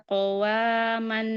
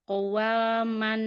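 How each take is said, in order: Both takes have the same delivery.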